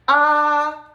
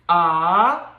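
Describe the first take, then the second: First: The pitch stays high and level. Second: The pitch rises from middle to high. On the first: "This is a flat tone" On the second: "This tone is a rising tone"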